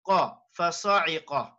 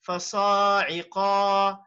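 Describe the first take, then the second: First: The vowels are kept short. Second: The vowels are stretched out longer. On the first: The speaker calls it right. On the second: The speaker calls it wrong.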